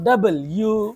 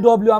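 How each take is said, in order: First: The letter name is said fully as 'double you'. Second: The letter name is clipped to 'dub-lyoo'. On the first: The speaker calls it right. "শুদ্ধ হলো ডাবল ইউ" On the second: The speaker calls it wrong. "আমরা বলি ডব্লিউ, এটা অশুদ্ধ"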